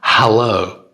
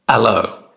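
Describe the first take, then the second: First: The word starts with a clear h sound. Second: The word starts without any h sound. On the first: "For example" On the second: "French speakers speaking English will say"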